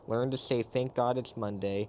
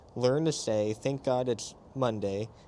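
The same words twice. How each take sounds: First: The phrase is read at a fast pace. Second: The phrase is read at a slower pace. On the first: The speaker calls it wrong. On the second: The speaker calls it right.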